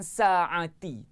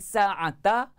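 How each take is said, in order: First: The word ends with an i vowel. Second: The word ends with an a vowel. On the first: "dia tak boleh baca dengan sa'ati" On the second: "Dia tak boleh baca dengan sa'ata"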